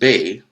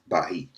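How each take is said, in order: First: It is said as one syllable, bay. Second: It is said with an h sound, ba-hi. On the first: This is how the name is said today. "Now pronounced Bay with a Y" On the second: This is how foreign settlers said it. "the Spaniards mispronounce as Bahi"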